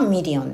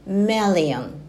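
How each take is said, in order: First: The first vowel is an 'ee' sound. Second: The first vowel is an 'eh' sound. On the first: The speaker calls it wrong. "日本語だとミリオンですけど" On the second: The speaker calls it right. "英語では、MII になっているのでメ、メリオンになります"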